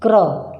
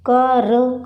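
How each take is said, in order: First: क्र said as one blended syllable "kra"; "kra", no vowel between k and r in क्र; joined consonants. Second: कर said as two sounds, "ka" then "ra"; "ka-ra", the two letters of कर kept apart; separate sounds. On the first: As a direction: run k straight into r in क्र. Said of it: "र हमें साथ में बोलना है". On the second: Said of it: "कर नहीं बोल रहे हैं". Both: Shown as a demonstration.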